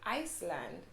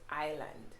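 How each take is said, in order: First: An S sound is heard in the middle. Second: No S sound is heard in the middle. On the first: The speaker calls it wrong. "most persons tend to say Iceland" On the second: The speaker calls it right. "it's actually pronounced island"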